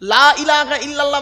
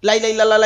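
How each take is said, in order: First: Said carefully, with every syllable fully pronounced. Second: Said hurriedly, with syllables clipped and run together. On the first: The speaker calls it right. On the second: The speaker calls it wrong.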